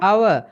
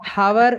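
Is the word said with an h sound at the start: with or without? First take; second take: without; with. First: The word starts with a vowel, no h sound. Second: The word starts with an audible h sound. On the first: The speaker calls it right. "எச்சும் silent" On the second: The speaker calls it wrong. "ஹவர் என்று வாசிச்சோம்னா பில"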